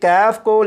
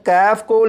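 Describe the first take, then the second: The two takes are said the same way.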